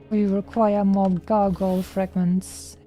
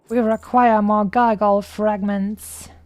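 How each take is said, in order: First: It is said in a natural speaking voice. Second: It is said in a put-on creature voice.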